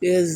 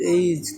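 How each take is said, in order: First: The vowel is a short plain 'e' sound. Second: The vowel glides like 'ay', a diphthong. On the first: The speaker calls it wrong. "এজ না" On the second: The speaker calls it right. "এটা উচ্চারণ হবে এইজ"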